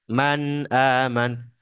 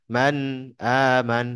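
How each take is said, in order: Both takes have the same delivery.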